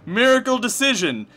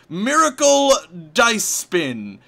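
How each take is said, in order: First: The second word sounds like 'decision'. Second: The second word sounds like 'dice spin'. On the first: The speaker calls it right. "you win" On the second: The speaker calls it wrong. "no, sorry, it's not miracle dice spin"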